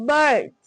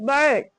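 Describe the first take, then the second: Both takes have the same delivery.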